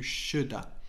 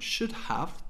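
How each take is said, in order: First: The second word is reduced to a short 'a'. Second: Both words are fully pronounced, with the h.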